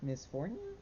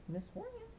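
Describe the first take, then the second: First: Said in the usual way. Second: Very high, soft rising call of Miss Fornia; high pet call. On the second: Real, not acted. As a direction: coax her over in a squeaky sweet voice. Calling the dog again.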